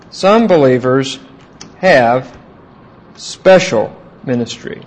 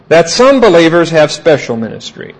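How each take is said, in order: First: "Some believers" then pause, "have" then pause, "special ministry" spaced out; slow dictation. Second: Said in the usual way. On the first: Shown as a demonstration. Teacher to class taking notes, slow spaced dictation. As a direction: dictate it phrase by phrase for note-taking. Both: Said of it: "teacher restating for notes".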